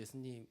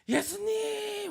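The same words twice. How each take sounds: First: It is said quietly and calmly. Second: It is said loudly and forcefully.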